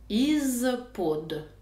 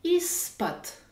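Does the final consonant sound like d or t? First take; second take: d; t. First: The word ends with a voiced d sound. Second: The word ends with a voiceless t sound. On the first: The speaker calls it wrong. "cette préposition s'écrit avec un « i », un z, un p, un o et un d" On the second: The speaker calls it right. "Mais je dois prononcer is pot"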